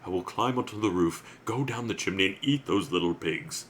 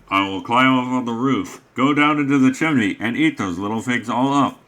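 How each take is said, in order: First: It is said in a soft angelic voice. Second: It is said imitating a Heavy Rain character.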